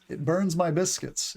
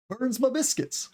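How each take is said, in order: First: Said in the usual way. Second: High-pitched Southern "burns ma biscuits"; Southern accent. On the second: Acted. Teacher showing ma in the South, Southern accent. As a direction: put on a Southern twang, my as ma. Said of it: "my is sometimes pronounced as "ma" in the South".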